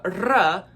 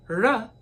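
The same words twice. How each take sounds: First: 'r' trilled with the tongue, then uh; rolling R. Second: 'r' as a light tap plus uh; soft R. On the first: Teacher showing R with the rolling sound, careful demo. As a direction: roll the 'r' firmly. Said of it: "the rolling sound". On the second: Teacher showing the softer version, careful demo. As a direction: say 'r' softly articulated, without rolling. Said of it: "meaning soft R sound". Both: Shown as a demonstration.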